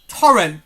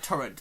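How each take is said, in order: First: The middle t sound is dropped or softened. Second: The middle t sound is clearly pronounced.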